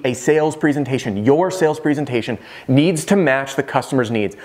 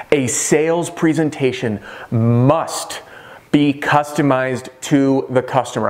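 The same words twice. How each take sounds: First: Said in the usual way. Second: Slow, weighty delivery; slow and deliberate. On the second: Shown as a demonstration. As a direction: lean on each word, slowly. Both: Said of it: "I'm gonna repeat".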